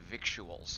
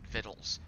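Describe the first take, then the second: First: It is said as spelled, with a 'k' sound. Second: It is said like 'vittles', without a 'k' sound. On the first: "spelled as if you were saying victuals" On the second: "but you pronounce it victuals"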